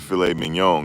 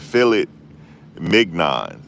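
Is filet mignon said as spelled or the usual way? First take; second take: usual way; as spelled. First: The words are said in their usual form. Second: The words are sounded out as they are spelled. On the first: The speaker calls it right. "instead of saying filet mignon" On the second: The speaker calls it wrong. "I used to call it filet mignon"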